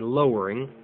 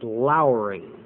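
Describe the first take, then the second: First: The first syllable sounds like 'low'. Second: The first syllable sounds like 'lour'. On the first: The speaker calls it wrong. "You normally read over the passage and you say lowering" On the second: The speaker calls it right. "the proper pronunciation is lowering"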